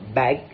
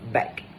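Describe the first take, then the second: First: The word ends with a voiced g sound. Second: The word ends with a voiceless k sound. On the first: "the word bag" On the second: "be pronounced as back"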